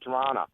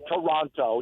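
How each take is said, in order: First: Toronto is pronounced the way locals say it. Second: Toronto is pronounced the way Americans say it. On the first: The speaker calls it right. "that's the way we pronounce it" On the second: The speaker calls it wrong. "you sound like a dumb American"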